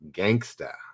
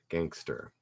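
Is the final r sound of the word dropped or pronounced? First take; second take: dropped; pronounced. First: The word ends in a plain vowel without r. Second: The word ends with an r-colored vowel. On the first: The speaker calls it wrong. "Shouldn't say gangsta" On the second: The speaker calls it right. "It's actually gangster"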